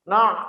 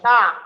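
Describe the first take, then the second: First: The syllable is said nasally, with air through the nose. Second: The syllable is said with no air through the nose. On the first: The speaker calls it wrong. "sengau dan kemudian keluar dari hidung" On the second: The speaker calls it right. "Jadi tidak ada yang keluar dari hidung"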